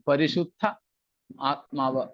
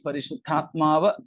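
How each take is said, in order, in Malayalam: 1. രണ്ട് ഭാഗങ്ങളും വേറെ വേറെയായാണ് പറയുന്നത്, ചേർക്കുന്നില്ല. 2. രണ്ട് ഭാഗങ്ങളും ചേർന്ന് ഒരു വാക്കായി മാറുന്നു. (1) "പിരിച്ചു പറയുക" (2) "എന്ന് തന്നെയാണ് ഉച്ചരിക്കേണ്ടത്"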